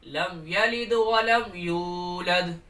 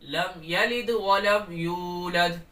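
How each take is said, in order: Both takes have the same delivery.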